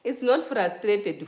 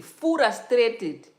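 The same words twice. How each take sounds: First: "frustrated" as the wrong take, slow and louder; correcting pronunciation. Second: "frustrated" drawn out, higher and much louder; corrected pronunciation. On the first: Correcting own slip for viewers, "frustrated" said slowly and emphatically. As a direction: say "frustrated" slowly, as the version being rejected. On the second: Correcting own slip for viewers, "frustrated" said high and loud. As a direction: punch out "frustrated" as the corrected take. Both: Shown as a demonstration.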